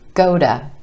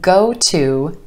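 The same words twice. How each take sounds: First: The T in 'to' is a quick flap. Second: The T in 'to' is a clear T.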